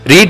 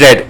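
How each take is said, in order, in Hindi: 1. यह शब्द 'reed' जैसा सुनाई देता है, लंबे स्वर के साथ। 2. यह शब्द 'red' जैसा सुनाई देता है, छोटे स्वर के साथ। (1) "एक रीड है प्रेजेंट प्रेजेंट टेंस का" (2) "पास्ट टेंस में हम उसे रीड नहीं पढ़ेंगे, रेड पढ़ेंगे"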